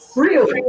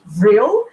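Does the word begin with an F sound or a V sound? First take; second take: F sound; V sound. First: The word begins with an F sound. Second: The word begins with a V sound. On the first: "pronounced Frill" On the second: "we usually see it written with a V"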